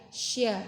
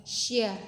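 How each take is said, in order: Both takes have the same delivery.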